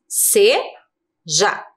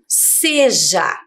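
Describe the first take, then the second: First: "Seja" in two separate pieces, se, ja; split into syllables. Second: Said in the usual way. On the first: Shown as a demonstration. Teacher counting two syllables for pupils, "Seja" broken in two. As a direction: pause between the syllables of "Seja". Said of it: "Duas sílabas". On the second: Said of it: "Agora essa palavra aqui".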